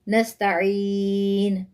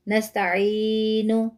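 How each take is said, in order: First: The word ends on the n, without a vowel. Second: The word ends with a short vowel after n. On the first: The speaker calls it right. "हम पढ़ेंगे" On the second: The speaker calls it wrong. "हम ऐसे नहीं पढ़ेंगे"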